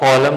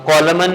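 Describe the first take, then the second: First: The word ends on m with no n sound. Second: The word ends with an audible n sound. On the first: The speaker calls it right. "कॉलम होता है" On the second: The speaker calls it wrong. "कॉलमन नहीं होता"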